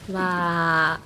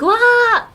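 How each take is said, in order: First: It sounds polite but unimpressed, mouth turned down. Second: It sounds genuinely impressed and delighted.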